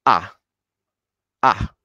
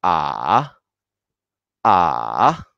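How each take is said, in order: First: Short falling "ah"; tone four. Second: Long "Ah" dipping low, then rising; very low tone three. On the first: Teacher shows learners the last tone, short falling "ah". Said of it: "por último". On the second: Teacher repeats tone three, long low dipping "Ah". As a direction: draw "Ah" out down low and lift the end. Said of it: "muy bajo". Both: Shown as a demonstration.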